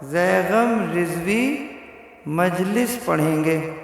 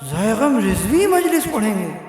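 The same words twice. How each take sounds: First: It is said in a plain, neutral tone. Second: It is said in a marked, eager tone. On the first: It simply states who will address the gathering. "लिखा हुआ है" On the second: He is very keen to come and address the gathering. "अंदाज बदल के यूं कहे"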